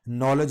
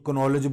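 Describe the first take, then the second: First: The word begins directly with the n sound. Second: The word begins with an audible k sound. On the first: The speaker calls it right. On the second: The speaker calls it wrong.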